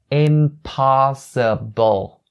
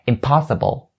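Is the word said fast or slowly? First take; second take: slowly; fast. First: The word is said very slowly. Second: The word is said at a quicker pace. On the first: "try to say it as slow as you can" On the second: "you can speed it up a little bit"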